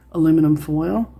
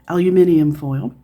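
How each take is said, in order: First: It is said in an American accent. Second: It is said in a British accent.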